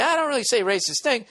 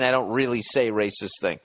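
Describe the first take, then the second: First: High-pitched, put-on mocking read; high, hammed-up echo of the letter; mock disclaimer. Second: Said in the usual way. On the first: Shown as a demonstration. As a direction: say it as an exaggerated joke, pitched way up. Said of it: "Or he's saying, like". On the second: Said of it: "What does that mean".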